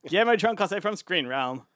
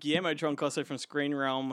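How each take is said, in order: First: It is said in a put-on character voice. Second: It is said in the speaker's normal voice.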